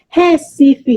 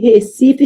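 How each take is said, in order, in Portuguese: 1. A vogal é pronunciada aberta. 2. A vogal é pronunciada fechada. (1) "se é aberto" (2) "se é fechado"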